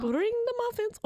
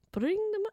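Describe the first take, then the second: First: High, trilled R in "Bring"; "Bring" with a rolled trill. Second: "Bring" tried again without the trill; rolled R attempt that fails; failed rolled R. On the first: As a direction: roll the R on "Bring the muffins". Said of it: "Ooh, I rolled an R". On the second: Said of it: "I can't do it now". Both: Shown as a demonstration.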